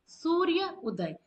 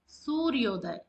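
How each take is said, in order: First: The two words are said separately, unmerged. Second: The vowels merge into one word with o. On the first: The speaker calls it wrong. "सूर्य उदय नहीं बोला जाता" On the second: The speaker calls it right. "सूर्योदय बोला जाता है"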